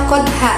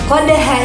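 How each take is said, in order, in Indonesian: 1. Huruf d dipotong tanpa pantulan. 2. Huruf d dilepas dengan pantulan ringan. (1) "tidak boleh dibaca qadha" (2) "terdapat huruf qalqalah, yaitu dal"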